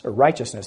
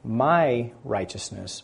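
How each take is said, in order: First: Said in the usual way. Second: My drawn out slowly and stressed; my righteousness, with weight on my. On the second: Shown as a demonstration. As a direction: lean hard on the word my. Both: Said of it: "He not only causes him to be".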